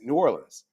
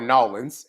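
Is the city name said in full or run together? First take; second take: full; run together. First: Every syllable of the name is said fully. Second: The name is squeezed into two quick syllables.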